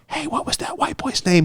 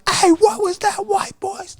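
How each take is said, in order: First: It is said quietly, as a private aside. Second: It is said loudly, projected into the mic.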